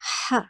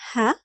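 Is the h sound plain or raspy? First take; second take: raspy; plain. First: The h is raspy, squeezed from the throat. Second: The h is a plain, soft breath. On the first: "making it raspier" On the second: "Please pronounce the H sound as in hat"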